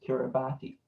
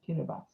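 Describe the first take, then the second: First: The 'ti' is said with a T sound. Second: The 'ti' is said with an S sound. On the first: The speaker calls it wrong. "Everyone would think it was Kiribati" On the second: The speaker calls it right. "the T and the I make the S sound. So it's Kiribati"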